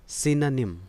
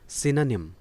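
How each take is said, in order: No difference in how they are said.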